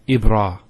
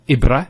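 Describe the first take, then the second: First: The vowel after the r is long. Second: The vowel after the r is short. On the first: The speaker calls it right. "it's a, a long vowel" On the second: The speaker calls it wrong. "Not ibra"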